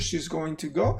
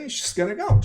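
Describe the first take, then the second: First: 'Going to' is said fully, each word clear. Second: 'Going to' is reduced to 'gonna' with schwa.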